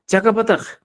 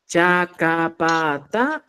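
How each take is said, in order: First: "Chacapataca" said at normal pace; word demo. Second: "Chacapataca" drawn out syllable by syllable; slow word demo. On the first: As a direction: repeat "Chacapataca" at normal speed. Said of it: "esta es la base". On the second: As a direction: say "Chacapataca" slowly for learners. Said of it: "mira, tenemos esto". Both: Shown as a demonstration.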